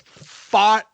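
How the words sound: The r is dropped, with a broad vowel. "with a Boston accent"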